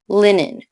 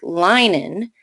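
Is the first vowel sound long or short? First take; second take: short; long. First: The first vowel sound is short. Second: The first vowel sound is long. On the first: The speaker calls it right. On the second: The speaker calls it wrong.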